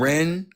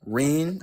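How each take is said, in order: First: The vowel sounds like 'eh', short. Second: The vowel sounds like 'ee', long. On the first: The speaker calls it right. "Ren just sounds better" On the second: The speaker calls it wrong. "I don't say Reen though. That shit sounds weird"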